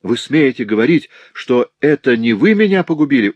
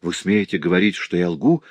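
First: Higher, louder accusing challenge; indignant outburst. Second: Restrained, incredulous challenge at usual pitch; narrator's understated outrage; indignant. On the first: Servant girl accuses her master of ruining her, loudly indignant. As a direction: escalate into heated outrage. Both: A narrator's reading. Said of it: "возмущённо воскликнула я".

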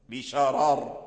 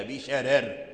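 First: بشرار with both r's heavy and full. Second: بشرر with both r's thin and light. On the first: Teacher showing Qalun's pause, r's heavy. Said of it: "تفخيم الراءين". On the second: Teacher ending Warsh's pause reading, r's light. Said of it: "يرقق الراء الثانية". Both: Shown as a demonstration.

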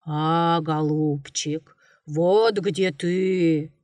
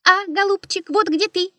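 First: Low, slow growling bear voice; a mild, lightly voiced bear roar. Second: Much higher squeaky echo; mocking bird's squeal; squeaking bird beak. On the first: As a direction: drag it out like a lumbering bear. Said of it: "заревел медведь". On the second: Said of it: "запищал птичий нос".

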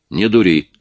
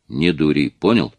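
First: Stern, pressing harder, a touch louder. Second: Firm warning, level voice; stern. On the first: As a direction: repeat the warning with more weight. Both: A narrator's reading. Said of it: "строго сказал".

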